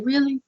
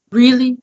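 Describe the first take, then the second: First: Higher, softer incredulous question; mock disbelief. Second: Higher, louder incredulous repeat; exasperated disbelief. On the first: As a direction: ask it in retold disbelief. Retold exasperation at storm damage. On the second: Retold or imitated. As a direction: hit it harder, retelling the exasperation. Retold exasperation, repeated harder.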